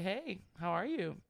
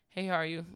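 First: It is said in a warm, engaging way. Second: It is said in a dry, disengaged way.

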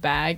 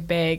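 First: The word is said in a non-Michigan accent. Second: The word is said in a Michigan accent. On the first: This is how people around here say it. "instead of bag" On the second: The speaker grew up somewhere else. "I am born in Michigan, so I don't say y'all. I might accidentally say bag"

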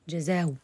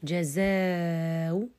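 First: The long vowel is held only briefly. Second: The long vowel is drawn out at length. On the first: "والقصر" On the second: "على الطول"

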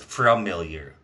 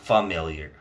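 First: The word starts with an r sound: "fram". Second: The word starts without an r sound: "fam". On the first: The speaker calls it wrong. "I straight up thought there was an R in the word familiar" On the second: The speaker calls it right. "But it's just F-A-M"

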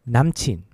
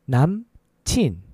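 First: It is said at a faster pace. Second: It is said at a slower pace.

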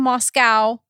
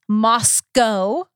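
First: The last syllable sounds like 'cow'. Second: The last syllable sounds like 'co'. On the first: This is how the Russian city is said. The speaker calls it wrong. "We're not saying Mos-cow" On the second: This is how the Idaho town is said. The speaker calls it right. "It's Mos-cow, Idaho"

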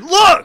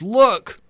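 First: It is said with strong emphasis. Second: It is said plainly, without emphasis.

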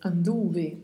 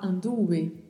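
First: The V sounds between a b and a v. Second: The same.

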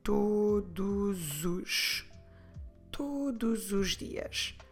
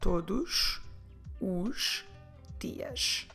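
First: The words run together, with the S linking on. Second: Each word is said separately, with breaks between. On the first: The speaker calls it right. "we'll put these two words together. That flows much better" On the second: The speaker calls it wrong. "we will not say it this way, separating each individual word"

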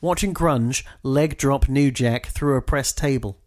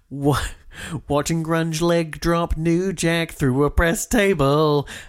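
First: It is read plainly, like normal speech. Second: It imitates the singer's odd, slurred delivery.

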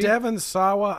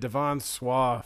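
First: The surname is said with two syllables. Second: The surname is squeezed into one syllable. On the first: "Is his name" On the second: "I've been calling that kid Devon Swa for a long time"

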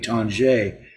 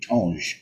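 First: The name ends with a pronounced final vowel. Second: The name ends without a pronounced final vowel. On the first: The speaker calls it wrong. "my dad told me Tanjay, but he's not reliable" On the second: The speaker calls it right. "if it's French and it ends with G-E-S, it would just be Tange"

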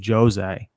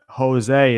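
First: The name is said the Portuguese way. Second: The name is said the common non-Portuguese way. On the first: The speaker calls it right. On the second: The speaker calls it wrong.

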